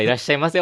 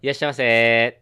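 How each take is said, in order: First: Rising sing-song welcome; shop clerk greeting. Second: Cheerful convenience store welcome; shop clerk greeting. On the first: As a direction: try a different tone of welcome. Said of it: "トーンから". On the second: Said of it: "じゃあ行きますよ". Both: Shown as a demonstration.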